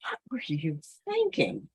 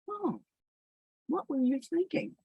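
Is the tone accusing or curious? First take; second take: accusing; curious. First: It sounds harsh and accusing. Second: It sounds gentle and genuinely curious.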